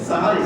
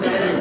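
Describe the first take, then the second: First: The word begins with 'sa' and has 'a' vowels. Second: The word begins with 'se' and has 'e' vowels. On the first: It names the pre-dawn meal. The speaker calls it right. "শব্দটা কি হবে? সাহারি।" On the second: It means doing magic. The speaker calls it wrong. "অনেকে বলে সেহেরি"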